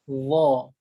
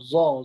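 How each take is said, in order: First: It starts with the tongue tip between teeth. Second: It starts with a plain z sound. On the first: The speaker calls it right. "sebutannya bagaimana hujung lidah keluar sedikit" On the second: The speaker calls it wrong. "biasa kita sebut zo, zo, zo. Ha, asal ada bunyi"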